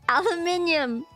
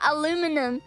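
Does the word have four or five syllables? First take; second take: five; four. First: It has an extra 'i' syllable, five in all. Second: It has no extra 'i' syllable, four in all. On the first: The speaker calls it right. "You gotta pronounce all of the all of the letters in it" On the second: The speaker calls it wrong. "Not aluminum"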